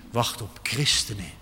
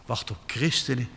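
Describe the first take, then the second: No difference in how they are said.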